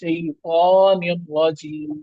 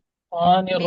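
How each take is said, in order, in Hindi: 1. अक्षर 'tai' पूरा बोला जाता है। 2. अक्षर 'tai' छोड़ दिया जाता है।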